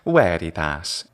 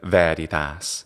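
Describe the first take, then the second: First: It uses restored classical Latin pronunciation. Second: It uses ecclesiastical Latin pronunciation. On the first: "restored classical pronunciation is veritas" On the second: "instead of veritas"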